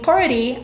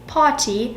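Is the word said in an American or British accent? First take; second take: American; British. First: It is said with an American accent. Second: It is said with a British accent. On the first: "instead of saying party" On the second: "I have to get used to not using R's"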